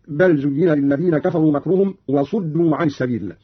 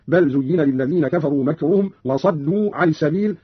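First: Said in the usual way. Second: وصدوا said "wa-saddu"; fatha on sad. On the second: Shown as a demonstration. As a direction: open a vowel after the s in وصدوا. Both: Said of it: "قرأ قالون بفتح الصاد".

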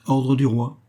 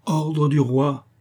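First: Firm, raised announcement of an order; autorité. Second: Slow, high, hammered-out order; angry insistence. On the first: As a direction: state the royal order with authority. Présente un ordre écrit. (ton ferme et autoritaire) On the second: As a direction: repeat the royal order, dragged out and forceful. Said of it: "La colère monta au visage de D'Artagnan". (ordre martelé avec colère, lentement) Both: A narrator's reading.

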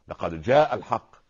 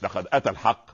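First: جاء slowed and louder, falling; stress on جاء. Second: Said in the usual way. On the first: Shown as a demonstration. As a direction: press on جاء. (نبر على جاء ببطء وقوة) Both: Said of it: "لا،".

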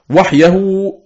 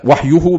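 First: وحيه said wahyahu, with an a before the h; accusative ending. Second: وحيه said wahyuhu, with an u before the h; nominative ending. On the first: Teacher contrasting two readings, وحيه with the fatha ending, wahyahu. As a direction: raise the pitch on وحيه, giving it the a ending. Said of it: "بالنصب". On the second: Teacher contrasting two readings, وحيه with the damma ending, wahyuhu. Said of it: "بالرفع". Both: Shown as a demonstration.

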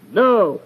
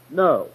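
First: "No" pitched higher and firmer; emphatic refusal. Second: Said in the usual way. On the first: Shown as a demonstration. Mother refusing her boy's cookie request, emphatic. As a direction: hit "No" hard as a refusal. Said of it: "she wanted to emphatically deny his request". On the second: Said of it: "Simple answer would be".

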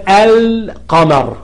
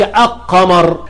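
First: القمر slowly with a held l, "al-qamar"; sounded moon lam. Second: القمر without its l, as "aq-qamar"; wrong assimilated lam. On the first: Teacher explaining the moon lam, القمر with a clear l. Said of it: "لام قمرية". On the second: Teacher showing what not to say, القمر as "aq-qamar". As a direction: drop the l and double the q in القمر. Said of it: "ما بتقولش". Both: Shown as a demonstration.

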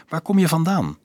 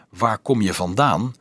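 First: Higher-pitched character question. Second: Said in the usual way. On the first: A narrator's reading. Dolf asks the girl where she is from, questioning. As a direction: lift the pitch to ask.

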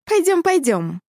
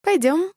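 First: Higher, insistent cat-woman coaxing; impatient. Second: High rising coax; femme fatale. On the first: A narrator's reading. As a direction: urge him, impatient and playful. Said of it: "нетерпеливо притопнула ножкой". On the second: Acted. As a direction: lure him along, playful. Cat woman coaxes the dog.

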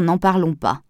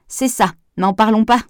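First: Said in the usual way. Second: Mocking echo. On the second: A narrator's reading. Pascal echoing Henri's complaint about the boiler, mocking. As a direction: echo his words back, mock-exasperated and a bit louder.

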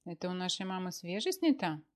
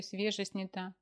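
First: Choking indignation. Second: Said in the usual way. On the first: Acted. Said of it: "поперхнулся Мефодий Сидорович сосиской". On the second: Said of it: "Я, говорю".

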